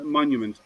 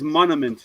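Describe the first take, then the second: First: Said in the usual way. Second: "monument" without its Y sound, as "mon-a-ment"; imitating a slip, "monument" as "monament"; sister's mispronunciation. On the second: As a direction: drop the "you" from "monument", saying "mon-uh-ment". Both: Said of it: "She just can't pronounce".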